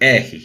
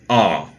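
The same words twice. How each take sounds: First: The letter is said with a Brazilian accent. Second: The letter is said with an English accent. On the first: "or for Brazilians, R" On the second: "the pronunciation of the letter R"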